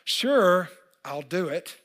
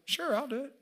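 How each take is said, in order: First: The voice sounds frustrated and reluctant. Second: The voice sounds willing and agreeable. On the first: The speaker is annoyed about the task. "I'm frustrated for some reason about this picture" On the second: The speaker is happy to help. "One was, I got you"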